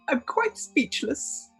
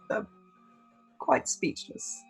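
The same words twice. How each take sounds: First: It is said in an affected, posh put-on voice. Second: It is said in a plain, natural everyday voice. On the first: "I'll put on airs for everyone else" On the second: "I'm just gonna speak in my normal voice around you guys"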